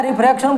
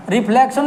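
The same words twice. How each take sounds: First: रिफ्रैक्शन said with an R after the F and a K before "shan"; correct word form. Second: रिफ्लेक्शन said with an L sound after the F; wrong word form. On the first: Teacher correcting students on the term, रिफ्रैक्शन with an R. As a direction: say रिफ्रैक्शन with "frak" in the middle. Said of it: "बोलना है". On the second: Teacher showing students what not to say, रिफ्लेक्शन with an L. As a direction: say रिफ्लेक्शन with "fle" in the middle. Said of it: "नहीं बोलना है". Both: Shown as a demonstration.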